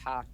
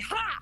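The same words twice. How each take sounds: First: It sounds flat and unamused, not really laughing. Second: It sounds triumphant, like catching someone out.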